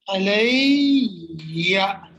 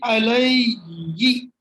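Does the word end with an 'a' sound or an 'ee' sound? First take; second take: a sound; ee sound. First: The word ends with an 'a' vowel sound. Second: The word ends with an 'ee' vowel sound. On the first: The speaker calls it right. "that's the reason you say alayya" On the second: The speaker calls it wrong. "you don't say alayyi. It's difficult to say alayyi"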